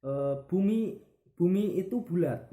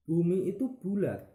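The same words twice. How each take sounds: First: "bumi itu bulat" said higher and louder; emphatic demo. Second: "Bumi itu bulat" higher, stressed on Bumi; same demo, wrong gesture. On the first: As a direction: declare "bumi itu bulat" with a strong rise on bumi. (ucapkan "bumi itu bulat" dengan tegas dan tinggi) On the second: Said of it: "Contoh, gerakan yang salah". ("Bumi itu bulat" diucapkan tinggi dengan tekanan pada Bumi) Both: Shown as a demonstration.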